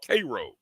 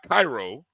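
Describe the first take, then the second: First: It is pronounced the way the Georgia town is. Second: It is pronounced the way the Egyptian city is. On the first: It names the town in Georgia. The speaker calls it right. "It's called Cairo" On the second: It names the city in Egypt. The speaker calls it wrong. "not Cairo. Cairo's in Egypt"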